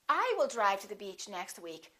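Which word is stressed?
I. The stress falls on the word I. It is this person, not someone else, who will drive. "not he"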